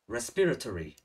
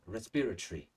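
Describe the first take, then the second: First: It is said in an American accent. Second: It is said in a British accent. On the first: "nếu chúng ta phát âm theo người Mỹ, chúng ta sẽ đọc là American accent" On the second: "Còn nói người Anh sẽ là dễ nhất"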